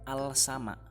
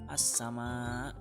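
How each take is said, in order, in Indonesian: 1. L-nya jelas diucapkan sebelum s. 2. L-nya melebur menjadi bunyi s yang ganda. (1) "bukan al-sama" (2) "Bacanya as-sama"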